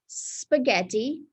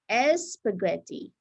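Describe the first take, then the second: First: The word starts directly with the s sound. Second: An extra e vowel comes before the s. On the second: "it's very, very common to hear S, S spaghetti"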